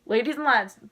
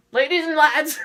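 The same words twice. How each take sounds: First: Loud, thrilled call to the crowd; excited announcement. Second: Louder excited shout. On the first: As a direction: start the big announcement already loud. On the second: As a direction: repeat it higher and much louder, bursting. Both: Retold or imitated. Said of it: "I flipped".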